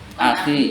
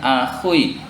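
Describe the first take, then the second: First: It ends in a plain i after kh. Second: It has a u sound before the final i. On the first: The speaker calls it right. "Akhi, ya? Iya" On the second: The speaker calls it wrong. "Bukan akhui"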